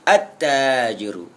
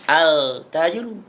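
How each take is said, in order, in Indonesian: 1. Bunyi l menyatu ke dalam t yang ganda. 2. Bunyi l terdengar jelas sebelum t. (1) "Dalam tajwid disebut dengan idgham" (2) "Tidak boleh dibaca al-tajiru"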